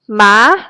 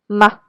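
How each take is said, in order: First: The pitch rises from middle to high. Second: The pitch is mid-level and very short. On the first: "it is represented by a rising accent mark over the vowel" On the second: "The neutral tone is somewhere in the middle and very short"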